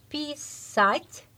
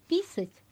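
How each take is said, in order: First: The stress is in its usual place. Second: The stress is moved to another syllable. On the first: It means to write. "donc c'est écrire" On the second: It means to pee. "vous changez accent tonique"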